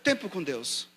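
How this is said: It is said forcefully and eloquently. It is the speaker's own eloquent style. "na eloquência que eu prego"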